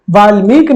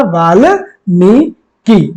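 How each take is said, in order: First: वाल्मीकि clipped to "valmik"; teacher voicing the mistaken वाल्मीकि; wrong form. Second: वाल्मीकि drawn out very slowly, each syllable clear; very slow dictation of वाल्मीकि; slow careful model. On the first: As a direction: say वाल्मीकि quickly without the final "ki". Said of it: "नहीं होता". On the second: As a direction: spell out वाल्मीकि slowly for students. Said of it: "क्या होता है?". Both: Shown as a demonstration.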